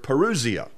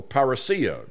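First: Parousia as puh-ROO-zee-uh; Greek pronunciation variant. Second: Parousia as par-uh-SEE-uh; alternative Greek pronunciation. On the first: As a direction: say parousia with stressed ROO and a buzzing z. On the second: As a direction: say parousia with stressed SEE and a hissed s. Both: Shown as a demonstration. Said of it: "depend on how you pronounce it".

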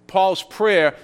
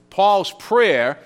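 No difference in how they are said.

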